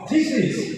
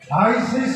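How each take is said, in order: First: The first vowel sounds like 'ee'. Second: The first vowel sounds like 'eye'. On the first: The speaker calls it right. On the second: The speaker calls it wrong. "থাইসিস নয়"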